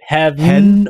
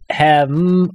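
First: The word has a clear V sound and full vowel. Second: The V is dropped into an M-like nasal.

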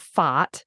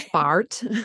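First: It is said with an Australian vowel. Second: It is said with an American vowel. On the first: "being Australian, any friends with younger children, they laugh at the way I say this word" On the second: "I think you guys say fart"

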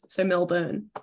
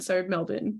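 First: The last syllable sounds like burn. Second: The last syllable sounds like bin. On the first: "which is why I always say think fire burns" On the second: "it does sound like we're saying bin"

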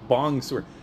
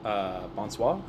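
First: It is said as English-like 'bong sewer'. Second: It is said with French vowels and nasal sounds. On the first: The speaker calls it wrong. "Would not have pronounced it that horribly" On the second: The speaker calls it right. "I can't believe I pronounced that correctly"

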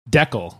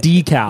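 First: The first syllable sounds like 'deck'. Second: The first syllable sounds like 'day'. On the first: This is the way people in rural areas say it. The speaker calls it right. "everyone here just said Deckel" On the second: This is the way the speaker first said it. The speaker calls it wrong. "decal doesn't sound right"

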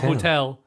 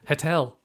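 First: The word is said in a standard accent. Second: The word is said in a soft Scottish accent. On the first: "Not hotel" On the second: "soft Scottish"

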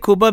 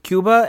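First: The word is said with a Spanish pronunciation. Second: The word is said with an English pronunciation. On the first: This is how the speaker's family says it. "I should say Cuba because that's how my family says it" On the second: This is how the speaker usually says it to fit in.

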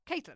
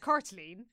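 First: The name is pronounced a non-Irish way. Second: The name is pronounced the Irish way. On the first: "the how you pronounce the name that I know that they want us to say" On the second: "if we were pronouncing this properly, the Irish way"

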